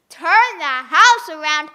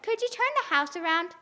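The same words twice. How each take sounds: First: Loud, slow disbelief; shocked echo of the request; loud astonished. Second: Said in the usual way. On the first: Acted. Una repeats in disbelief.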